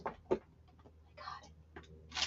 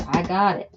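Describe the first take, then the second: First: Slow, drawn-out whisper. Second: Said in the usual way. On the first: Real, not acted. Whispering to herself as she finds it. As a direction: breathe it out slowly.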